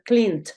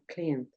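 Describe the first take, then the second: First: The ending of the word is pronounced heavily. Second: The ending of the word is pronounced very lightly. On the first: The speaker calls it wrong. "no te va a sonar cleaned" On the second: The speaker calls it right. "suena cleaned"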